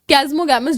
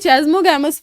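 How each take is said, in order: First: The word begins with a 'k' sound. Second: The word begins with a 'ch' sound.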